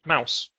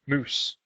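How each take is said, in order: First: The vowel is an ow sound. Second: The vowel is a long oo sound. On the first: This is the later pronunciation. "it started to be pronounced mouse" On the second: This is the older pronunciation. "the word mouse used to be pronounced moose"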